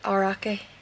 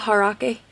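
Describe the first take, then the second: First: The word starts with a vowel, no H. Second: The word starts with an H sound.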